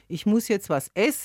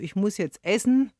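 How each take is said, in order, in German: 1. Das Verb wird ohne die Endung gesprochen. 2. Das Verb wird mit der vollen Endung gesprochen. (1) "Das ist so typisch für das Unterostfränkische, dass die Endung weggelassen wird" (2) "im Oberostfränkischen haben wir wieder eine Endung hinten dran"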